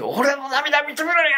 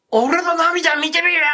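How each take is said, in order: First: Much higher, slow shout as the possessed mother; possessed mother at the wake repeats it, high and slow; dead son's voice. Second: Much higher, louder, slow shout as the possessed mother; mother seized by her dead son at the wake, slow high cry; dead son's voice. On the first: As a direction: call out slowly as if the dead son speaks through her. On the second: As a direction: cry it out as if a dead young man speaks through you. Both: Retold or imitated. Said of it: "男の声で".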